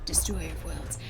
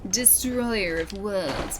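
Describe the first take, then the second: First: It is said in a deep, dramatic voice. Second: It is said in a plain, ordinary voice.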